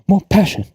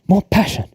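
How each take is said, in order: Both takes have the same delivery.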